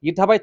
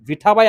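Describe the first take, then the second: First: The name begins with a vowel sound. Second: The name begins with a v sound. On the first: This is the rural form. "थोडासा ग्रामीण भागात आहे" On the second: This is the standard form. "हा शब्द शास्त्र शुद्ध मराठीत आहे"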